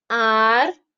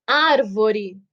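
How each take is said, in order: First: Arvore broken into ar, vo, re; syllable by syllable. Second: Árvore as one word, ÁR lengthened; stress on first syllable. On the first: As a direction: say arvore in separate syllables with clear pauses. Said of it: "fazer a separação silábica". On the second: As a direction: lean on the ÁR of árvore. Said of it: "antepenúltima". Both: Shown as a demonstration.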